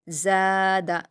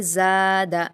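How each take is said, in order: First: زیادہ repeated with the زا drawn out; stretched za. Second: زیادہ with the زا held for two beats; stretched za. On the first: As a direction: repeat it slowly for the class. (زیادہ دوبارہ کھینچ کر) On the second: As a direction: read it as a model, long first vowel. (زیادہ میں زا کو کھینچیں) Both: Shown as a demonstration. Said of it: "ہم زا کو کھینچ کر پڑھیں گے".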